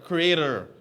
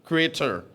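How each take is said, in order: First: The word is said with an American accent. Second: The word is said with an American accent.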